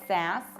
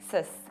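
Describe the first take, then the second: First: The vowel is a full open A. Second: The vowel is reduced to a short weak sound. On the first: The speaker calls it wrong. "You don't pronounce sass like sass" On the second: The speaker calls it right. "You reduce it"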